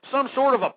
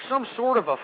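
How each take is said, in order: Both takes have the same delivery.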